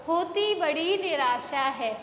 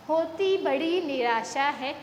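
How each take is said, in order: Both takes have the same delivery.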